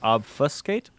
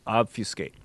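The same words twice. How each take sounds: First: The middle syllable sounds like "fuss." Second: The middle syllable sounds like "few." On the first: "Fu like the syllable in fuss" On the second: "Fu, like few"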